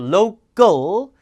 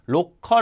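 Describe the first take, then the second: First: Said in English, with a long o and dark l. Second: Said Korean-style, as ro-keol. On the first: The speaker calls it right. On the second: The speaker calls it wrong.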